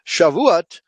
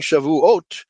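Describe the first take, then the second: First: Said in the usual way. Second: Shavuot with the accent on the final syllable, -OT; Shavuot, stress on the final ot; Hebrew pronunciation. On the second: Shown as a demonstration. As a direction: say Shavuot slowly, landing on the last syllable ot. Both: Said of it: "let's try saying Shavuot".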